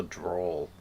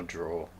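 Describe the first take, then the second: First: "drawl" with the final L clearly sounded; correct pronunciation. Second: "draw" with no L at the end; wrong pronunciation. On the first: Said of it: "not a draw". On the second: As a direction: say "draw" without the final L. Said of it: "I thought it was a drawl". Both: Shown as a demonstration.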